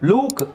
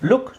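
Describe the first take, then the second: First: The vowel is drawn out long. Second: The vowel is short and clipped. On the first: The speaker calls it wrong. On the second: The speaker calls it right.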